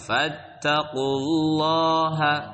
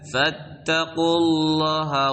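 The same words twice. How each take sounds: First: The vowel in Allah is held long. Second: The vowel in Allah is cut short. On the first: The speaker calls it right. "dibaca panjang lafaz Allahnya" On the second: The speaker calls it wrong.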